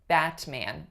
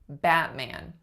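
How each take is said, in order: First: The T is released with an audible puff. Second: The T is held back without a release. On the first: The speaker calls it wrong. "It would be unexpected to hear Batman, Batman with a released T" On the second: The speaker calls it right. "you unrelease your T if it's at the end of a syllable"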